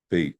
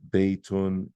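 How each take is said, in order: First: The word ends without any added ending. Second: The word ends with a full -un ending. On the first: The word is read without relying on vowel markings. "I can just say bait" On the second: Every vowel marking is read out. "Instead of having to say Baytun and have everything there"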